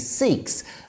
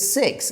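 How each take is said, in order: First: It is said with a British pronunciation. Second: It is said with a North American pronunciation. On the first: "Here in the U K, we call our community Sikhs" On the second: "in North America, it's Sikhs"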